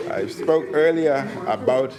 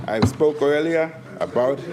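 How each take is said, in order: Both takes have the same delivery.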